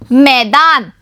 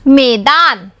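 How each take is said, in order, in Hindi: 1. पहला स्वर 'ai' की आवाज़ है। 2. पहला स्वर एक सादा 'e' की आवाज़ है। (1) "म में ऐ की मात्रा मई" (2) "म में ए की मात्रा में"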